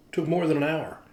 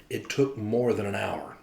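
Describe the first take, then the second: First: MORE punched, pitched a bit higher; stress on more. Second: Slow, with TOOK leaned on and drawn out; stress on took. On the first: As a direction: hit the word more in the repeat. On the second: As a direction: hit the word took and let the line fall. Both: Shown as a demonstration.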